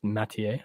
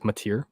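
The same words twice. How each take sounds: First: The name has a French pronunciation. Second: The name has an English pronunciation. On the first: The player is French Canadian. "I'm assuming he's French Canadian" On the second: The player is not French Canadian. "Otherwise it's"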